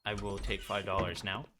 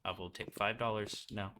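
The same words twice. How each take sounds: First: I stressed, the end rising; a cheeky request tipped up on I. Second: Five leaned on, lower and soft; a dry, quiet request with five stressed. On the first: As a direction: make I the key word, rising at the end. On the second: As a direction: ask plainly, weighting the word five. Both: Shown as a demonstration. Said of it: "Said that very carefully".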